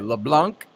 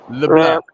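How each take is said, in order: First: The final N and C sounds are pronounced. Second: The final N and C sounds are silent. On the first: "his name was spelled the same way" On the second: "The N and the C word silent"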